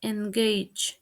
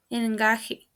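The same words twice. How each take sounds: First: "engage" as en-GAYJ; "engage" in two syllables; correct pronunciation. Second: "engaje" as en-GAH-heh; "engaje" in three syllables, h for g; mispronounced. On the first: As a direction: say "engage" with ay and final j. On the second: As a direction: say "engaje" with Spanish a and h. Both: Shown as a demonstration. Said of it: "The correct pronunciation is".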